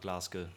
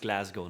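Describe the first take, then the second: First: Glasgow is pronounced in a German-style way. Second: Glasgow is pronounced the English way. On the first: The speaker calls it wrong. "not Glasgow. Glasgow would kind of be the Germanized pronunciation" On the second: The speaker calls it right. "it's Glasgow"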